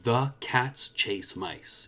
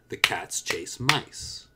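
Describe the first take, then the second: First: 'The' is said fully and separately from 'cats'. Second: 'The' is quick and blended into 'cats'. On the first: The speaker calls it wrong. "Notice that I'm not saying" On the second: The speaker calls it right. "It's the cats. Almost one sound"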